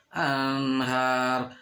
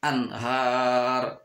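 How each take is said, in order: First: Sung, "anhar" with a lingering nasal n; sung, slow "anhar", n running into the h; wrong hummed reading. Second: "anhar" with a short n, then a long har; slow "anhar", clear n with no hum; clear idhar reading. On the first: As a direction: stretch and hum the n of "anhar". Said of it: "nggak boleh". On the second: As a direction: cut the n cleanly in "anhar". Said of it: "harus jelas". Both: Shown as a demonstration.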